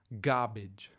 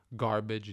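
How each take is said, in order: First: The r after the first vowel is dropped. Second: The r after the first vowel is pronounced.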